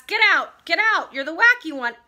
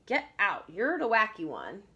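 First: Loud, high, forceful order out; teacher's shout. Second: Said in the usual way. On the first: A narrator's reading. Teacher ordering pupil out of class, shouting. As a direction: shout it like a cross storybook teacher. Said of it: "She's shouting at him".

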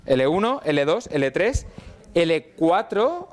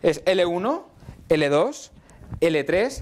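First: Slow, deliberate listing of levels. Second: Rattled off as a quick memory chant; said quickly. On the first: Teacher going back over the levels for students, slow and deliberate. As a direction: spell out each level slowly. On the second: Teacher rattling off the levels for students, quick. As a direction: run the levels together fast. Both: Shown as a demonstration. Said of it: "Lo voy a decir muy rápido".

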